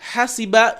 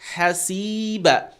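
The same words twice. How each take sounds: First: The vowel after the s is cut short. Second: The vowel after the s is held long. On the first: Someone will rethink the consequence. The speaker calls it wrong. "you took away the ya" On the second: Someone will be held to account. The speaker calls it right. "So the sin is stretched"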